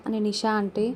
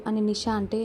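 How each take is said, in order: Both takes have the same delivery.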